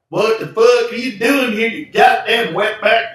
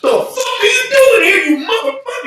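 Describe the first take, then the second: First: It is delivered in a relaxed, normal way. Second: It is delivered with real anger and force.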